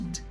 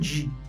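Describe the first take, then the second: First: The D sound is weak and light. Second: The D sound is strong and full. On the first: The speaker calls it right. "ele sempre vai ser um D, bem fraquinho" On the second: The speaker calls it wrong. "Ele nunca vai ser um D"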